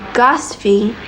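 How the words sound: It is said the British way.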